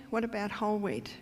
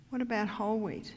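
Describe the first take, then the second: No difference in how they are said.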